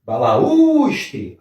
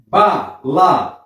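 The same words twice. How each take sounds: First: "Balaustre" joined up with a long, high "us"; stressed tonic syllable. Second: "Balaustre" split as "Ba... la... us... tre"; syllable by syllable. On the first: Teacher showing which syllable is tonic, drawn-out high "us" in "Balaustre". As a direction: stretch and lift the "u" in "Balaustre". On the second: Teacher dividing the word for students, "Balaustre" syllable by syllable. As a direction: say "Balaustre" in four separate beats. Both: Shown as a demonstration. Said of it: "A sílaba tônica é esta".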